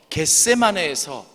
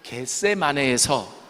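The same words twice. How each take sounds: First: The word is pronounced with strong, firm articulation. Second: The word is pronounced with softer, weaker articulation.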